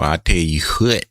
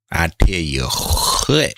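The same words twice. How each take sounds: First: Said in the usual way. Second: Slow, drawn-out Southern country drawl on "I tell you what"; country accent. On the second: Shown as a demonstration. Streamer to chat, hamming up a country accent. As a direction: lean into a thick country accent, stretching it out. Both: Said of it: "I had to hit my country accent".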